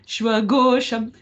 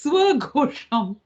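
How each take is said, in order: First: It begins with an sh sound. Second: It begins with a plain s sound. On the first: The speaker calls it wrong. "We are not talking about the sound the dog is making" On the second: The speaker calls it right. "it's swagosham"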